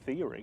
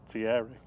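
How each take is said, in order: First: The name sounds like the word 'theory'. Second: The name does not sound like 'theory'. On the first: The speaker calls it wrong. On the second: The speaker calls it right.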